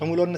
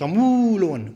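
First: The vowel in 'mu' is short. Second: The vowel in 'mu' is drawn out long. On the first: The speaker calls it wrong. "સમૂલોન નથી" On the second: The speaker calls it right. "સમૂલોન મૂ દીર્ઘ છે"

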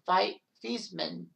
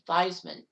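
First: The name does not rhyme with Heisman. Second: The name rhymes with Heisman. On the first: This is the family's original pronunciation. "change the pronunciation's last name from Theismann" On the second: This pronunciation was adopted to evoke the Heisman trophy. "to Theismann, to try to get him the Heisman"

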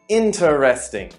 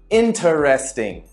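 First: Every syllable of the word is pronounced in full. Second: Every syllable of the word is pronounced in full.

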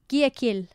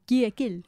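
First: The name is said in a plain accent. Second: The name is said in a French accent. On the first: This is how the travellers think it is said. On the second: This imitates how locals correct the name.

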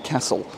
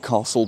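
First: Castle is said with a northern English accent. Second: Castle is said with a local London accent. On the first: This is how the speaker's home region says it. "because I'm from the north and we just say castle" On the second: This is how people who live there say it. "the locals would call it Castle Bar Park"

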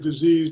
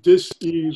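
First: The word is said smoothly as one unit. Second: The word is split into dis and ease. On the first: It names an illness. "You mentioned the word disease" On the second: It means a state of not being at ease. "but you pronounced it dis-ease"

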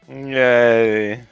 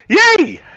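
First: It is said flatly, without excitement. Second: It is said with much more excitement.

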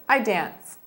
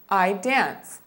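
First: It is said at a faster pace. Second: It is said at a slower pace.

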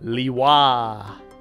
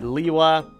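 First: The final syllable 'wa' is clearly enunciated. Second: The final syllable is reduced and not enunciated. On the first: This is the newest pronunciation of the name. "Where they really enunciate the wa" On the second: This is an older pronunciation of the name. "So we've had Liwa"

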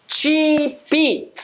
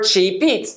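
First: The sound breaks between the two words. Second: The P sound links smoothly into the next word. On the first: The speaker calls it wrong. "そこで音が途切れてしまう" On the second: The speaker calls it right. "つながっているように聞こえるんです"

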